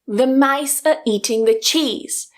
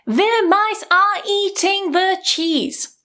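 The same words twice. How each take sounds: First: Only the key words are stressed; the rest is weakened. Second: Every syllable is given equal stress. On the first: The speaker calls it right. "I'm not stressing every syllable in English" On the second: The speaker calls it wrong. "I'm not saying"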